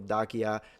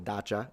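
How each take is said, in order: First: The name is said the older, non-modern way. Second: The name is said the modern way.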